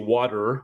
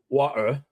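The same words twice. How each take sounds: First: The t in the middle sounds like a d. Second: The t is replaced by a glottal stop. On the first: "Americans say water with a D" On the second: "The Cockney is water"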